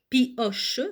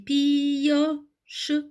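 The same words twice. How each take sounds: First: The i sound is said only once. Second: The i sound is said twice, pi-yoche. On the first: The speaker calls it wrong. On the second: The speaker calls it right.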